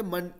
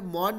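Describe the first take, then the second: First: मन said with a short 'uh', like 'mun'; मन with schwa. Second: मॉन said with a full 'aw' vowel; मॉन with open o. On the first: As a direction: reduce the vowel in मन to 'uh'. (मन, छोटे 'अ' के साथ) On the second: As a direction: say मॉन as spelled m-o-n. (मॉन, खुले 'ऑ' के साथ) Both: Shown as a demonstration. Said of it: "मॉन नहीं बोलेंगे".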